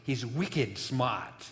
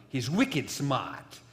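First: Slow Boston accent, r dropped in "smart" as "smaht". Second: Repeated slowly in a Boston accent, "smart" without the r. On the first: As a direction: drawl "wicked smart" the Boston way, no r. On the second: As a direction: say "wicked smart" again, Boston style, r dropped. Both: Shown as a demonstration. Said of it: "I can't get my Boston accent out".

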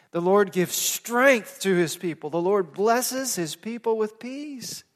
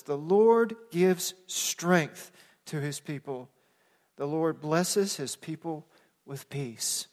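First: Lifted, higher verse, leaning on "strength" and "blesses"; emphatic scripture repeat. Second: Slow, measured verse, softening on "peace"; slow scripture reading. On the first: Pastor repeating the psalm to the congregation, emphatic and lifted. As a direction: drive home "strength" and "blesses" with a rising voice. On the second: Pastor sharing a psalm with the congregation, slow and measured. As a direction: read it slowly, phrase by phrase, settling down at the end. Reads the verse slowly first time. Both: Real, not acted.

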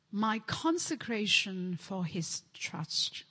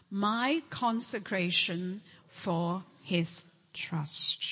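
First: Said in the usual way. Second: Slow, unvoiced whisper. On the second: Shown as a demonstration. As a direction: breathe it out slowly, hushed. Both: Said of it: "One more time".

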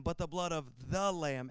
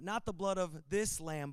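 First: "the" leaned on as the one and only; stress on "the". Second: "this" leaned on against the contrast to come; stress on "this". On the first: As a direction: put the weight on "the" before lamb. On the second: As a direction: put the weight on "this". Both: Real, not acted. Contrasts this lamb with the lamb.

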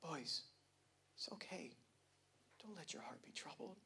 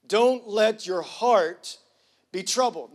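First: Soft whispered comfort, "Don't" barely breathed; soothing whispered reassurance to his boys; gentle whisper. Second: Slow and firm, stress on "Don't"; a commanding Jesus, slowly; emphatic command. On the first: Retold or imitated. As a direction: hush it like a gentle, passive Jesus. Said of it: "this passive, gentle Jesus saying it like". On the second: Shown as a demonstration. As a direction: lean hard on "Don't let your heart". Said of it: "Jesus saying it like".

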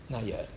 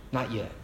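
First: "Not yet" again, much softer, almost breathed; fading echo. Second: Soft, falling "Not yet". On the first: Preacher echoing his warning, fading to a hush. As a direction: let "Not yet" fade to nearly nothing. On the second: Preacher warning the congregation, soft and firm. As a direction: let "Not yet" drop gently. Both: Shown as a demonstration. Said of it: "not yet repeated".

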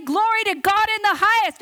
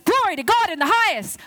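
First: Louder, higher proclamation; booming heavenly announcement; proclaiming loudly. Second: A touch of soldierly proclamation; lightly gruff military shout. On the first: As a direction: announce it to the crowd. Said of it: "they have come to say". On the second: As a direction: call it out like a legion. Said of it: "That's what the angel said". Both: Acted.

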